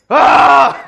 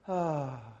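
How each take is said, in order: First: It is a sharp, frustrated sigh. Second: It is a calm, relaxed sigh.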